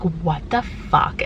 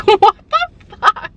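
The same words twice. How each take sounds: First: Low, slow-drawn "what the fuck"; slow, low-pitched reaction; low-key disbelief. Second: High, very loud "what the fuck"; loud, high-pitched freak-out; explosive disbelief. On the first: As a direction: say it deep and drawn out, in stunned disbelief. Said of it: "there are moments where you're like". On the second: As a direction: blast it out in a high-pitched outburst. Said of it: "then there are moments where you're like". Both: Acted.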